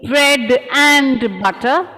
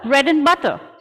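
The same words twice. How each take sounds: First: The word 'and' is said in full. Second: The word 'and' is reduced to 'n'. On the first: The speaker calls it wrong. "instead of saying" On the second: The speaker calls it right. "We just say in instead of saying and"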